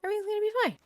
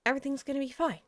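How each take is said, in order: First: Very high-pitched, unconvinced insistence; squeaky self-reassurance. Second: Contained self-soothing, only slightly raised; self-reassurance. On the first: Player convincing self about exiling Patty, squeaky reassurance. Repeats reassurance higher each time. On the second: Player plans to exile Patty, composed self-reassurance. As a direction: reassure yourself, still fairly composed. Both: Real, not acted.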